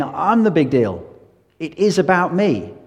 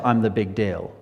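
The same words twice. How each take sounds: First: "I'm the big deal" said slower and louder, hitting "the big deal" hard; emphatic claim. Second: Said in the usual way. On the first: Shown as a demonstration. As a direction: lean on "I'm the big deal" as a bold claim, each word weighted. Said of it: "Jesus said again and again". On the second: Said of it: "Muhammad would not have said".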